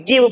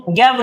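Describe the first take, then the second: First: गिव with a short i vowel; correct reading of give. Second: गैव with an open e vowel; wrong reading of give. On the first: Teacher showing learners the right reading, गिव with short i. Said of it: "गिव पढ़ना". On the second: Teacher warning learners off a misreading, गैव with e vowel. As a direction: say गैव with e, as the mistake. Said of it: "गैव नहीं पढ़ना". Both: Shown as a demonstration.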